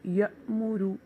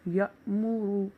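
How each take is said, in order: No difference in how they are said.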